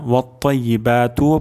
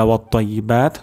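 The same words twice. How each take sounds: First: ওয়াত্তাইয়িবাতুও ending in an open "tu"; voweled ending. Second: ওয়াত্তাইয়িবাত closed on t; stopped ending. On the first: Teacher shows the first allowed reading, voweled ending. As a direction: carry ওয়াত্তাইয়িবাতুও on to a final u. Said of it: "পড়তে পারবো". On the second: Teacher shows the reading with a pause, stopped ending. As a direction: stop ওয়াত্তাইয়িবাত without a final vowel. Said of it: "অর্থাৎ ওয়াকফা হবে". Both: Shown as a demonstration.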